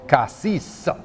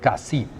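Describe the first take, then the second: First: The final S sound is pronounced. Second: The final S sound is silent. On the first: This is how locals say it. The speaker calls it wrong. "they pronounce the S" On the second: This is the official way to say it. The speaker calls it right. "officially, they should not. It is really Cassis"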